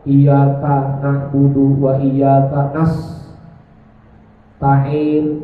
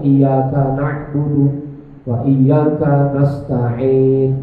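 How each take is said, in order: First: The last word is split by a short pause. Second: The last word is said without any pause.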